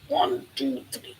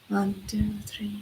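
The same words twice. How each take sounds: First: The counting sounds tight and tense. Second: The counting sounds soft and gentle.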